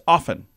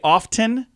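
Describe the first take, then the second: First: The T sound is silent in the middle. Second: The T sound is pronounced in the middle. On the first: The speaker calls it right. "but it's often. You don't pronounce the T" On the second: The speaker calls it wrong. "A lot of people say often"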